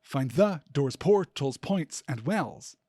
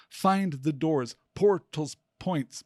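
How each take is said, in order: First: "find THE doors", every second syllable punched; forced iambic stress. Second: Slow "FIND the doors, POR-tals, points", first beat stressed; DUM-da-da rhythm on "Find the doors, portals, points"; dactylic stress. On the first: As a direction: stress THE hard in "Find the doors", then POR, POINTS, WELLS. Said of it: "If that line were also in iambic quatrameter, it would read". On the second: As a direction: hit "Find" and let "the doors" fall away, then punch "portals". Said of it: "It could be read as dactylic poetry". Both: Shown as a demonstration.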